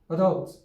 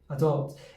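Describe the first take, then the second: First: It is said in a Glasgow accent. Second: It is said in a standard American accent. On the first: "And Glaswegian" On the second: "standard American English"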